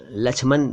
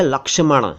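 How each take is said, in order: First: लक्ष्मण said as "lachhman"; colloquial लक्ष्मण. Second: लक्ष्मण said as "lak-sha-man"; correct pronunciation. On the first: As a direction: chh replaces k-sh in लक्ष्मण. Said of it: "भी कह देते हैं". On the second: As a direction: clear k-sh and retroflex n in लक्ष्मण. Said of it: "सही शब्द तो". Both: Shown as a demonstration.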